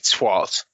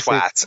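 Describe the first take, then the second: First: The vowel is not a hard A sound. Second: The vowel is a hard A sound. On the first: This is how Americans say it. The speaker calls it wrong. "Americans say twat" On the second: This is how the speaker's own people say it. The speaker calls it right. "we say twat"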